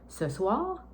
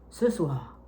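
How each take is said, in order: First: The voice pauses without dropping at the end. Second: The voice drops at the end like a full stop. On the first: The sentence continues after the pause. The speaker calls it right. "il faut quand même que tu fasses une pause, mais pas de descendre ta voix" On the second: The sentence sounds finished. The speaker calls it wrong. "C'est pas ce soir"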